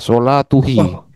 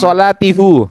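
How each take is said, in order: First: The vowels after the t are u then i. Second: The vowels after the t are i then u. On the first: "kalau dibaca sholatuhi itu sulit nggak kira-kira?" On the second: "ya sulit"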